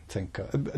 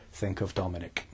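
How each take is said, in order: First: Said in the usual way. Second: Low hushed creepy murmur. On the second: Shown as a demonstration. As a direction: say it like a creepy stalker. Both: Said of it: "not in that creepy voice that I just did".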